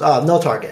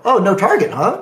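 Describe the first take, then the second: First: Said in the usual way. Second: Higher, mildly challenging echo; retold pointed "oh, huh?"; sceptical echo. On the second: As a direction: repeat it back as if catching them out. Sceptical echo of opponent's claim.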